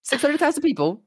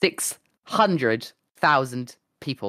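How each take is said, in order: First: High-pitched, disbelieving outburst; incredulous. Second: Slow, spaced-out words for effect; slow dramatic reveal. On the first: Streamer repeats queue size to friend, incredulous. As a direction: repeat the figure in squeaky disbelief. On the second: Streamer reveals queue size to friend, slow and dramatic. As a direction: let each word land separately. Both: Real, not acted.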